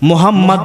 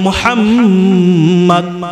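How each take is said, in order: First: The word is said with a careless, inexact sound. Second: The word is said with a careful, exact sound. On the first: The name comes out meaning worthless or rubbish. The speaker calls it wrong. "মুহাম্মদ হলো হামদুন শব্দ থেকে, হামদুন শব্দের অর্থ হলো অনার্থক" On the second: The name means the most praised person. The speaker calls it right. "মুহাম্মদ শব্দটি হলো তাহমিদ থেকে, অর্থাৎ প্রশংসিত ব্যক্তি"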